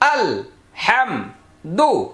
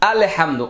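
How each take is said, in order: First: The syllables are said short and clearly separated. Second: The opening syllable is stretched to sound like 'Allah'. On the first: The speaker calls it right. "এটাকে আলাদা করার জন্য সুযোগ হলো" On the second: The speaker calls it wrong. "অনেকেই দেখবেন এভাবে বলেন"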